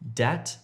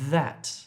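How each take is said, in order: First: The word begins with a d sound. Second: The word begins with a th sound. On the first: The speaker calls it wrong. "don't say dat" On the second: The speaker calls it right. "if you're trying to say that"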